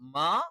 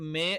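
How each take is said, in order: First: The vowel is an open 'a' sound. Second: The vowel is an 'e' sound. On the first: The speaker calls it right. "മാ ശരിയാണ്" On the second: The speaker calls it wrong. "മേ എന്നുള്ളത് തെറ്റാണ്"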